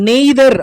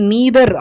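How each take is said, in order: First: The first vowel sounds like 'ay'. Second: The first vowel sounds like 'ee'. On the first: The speaker calls it wrong. "நெய்தர் அப்படின்றது வந்து wrong pronunciation" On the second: The speaker calls it right. "இல்லை நீதர் அப்படின்னு சொல்லலாம்"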